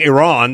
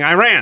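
First: The name is said the way Iranians say it. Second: The name is said the way Americans say it. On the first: "in Iran, they've been saying Iran the whole time" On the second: "we've been saying Iran"

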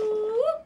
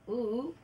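First: The call is loud and high-energy. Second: The call is quiet and low-energy.

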